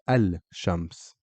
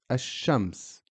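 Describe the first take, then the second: First: The article is said with a clear l sound. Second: The l is dropped and the sh is doubled. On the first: The speaker calls it wrong. "I'm not saying al-shams" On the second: The speaker calls it right. "we skip the lam and we just say ash-shams"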